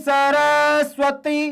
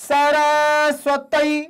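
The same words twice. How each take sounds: Both takes have the same delivery.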